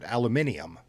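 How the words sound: It is said with five syllables, British style. The speaker calls it right. "the British pronunciation"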